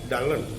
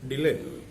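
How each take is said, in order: First: The first syllable sounds like the word dull. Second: The first syllable does not sound like dull. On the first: "the word was pronounced like uh, Dallin" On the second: "Dylan wanted his name to be pronounced as Dylan"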